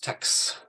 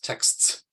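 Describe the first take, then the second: First: The final consonant cluster is cut short. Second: The full consonant cluster ends the word. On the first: "most people probably reduce that that um, coda" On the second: "the way to pronounce it is texts"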